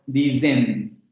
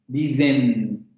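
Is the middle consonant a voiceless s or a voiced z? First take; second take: voiced z; voiced z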